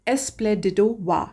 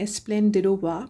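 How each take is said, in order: First: There is no 'n' sound before 'dido'. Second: An 'n' sound comes before 'dido'. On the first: "पहला है" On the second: "बहुत से लोग एस्प्लेंडिडो वा भी बोलते हैं"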